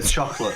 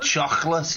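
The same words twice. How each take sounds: First: It is said plainly, without throatiness. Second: It has a throaty modern Liverpool sound.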